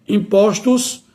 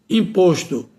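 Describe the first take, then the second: First: "impostos" with open ó, rising. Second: "imposto" with closed ô, falling. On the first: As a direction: say "impostos" as im-PÓS-tos. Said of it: "passa para o timbre aberto". ("impostos" com ó aberto) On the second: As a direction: say "imposto" as im-PÔS-to. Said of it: "o O permanece com o timbre fechado". ("imposto" com ô fechado) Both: Shown as a demonstration.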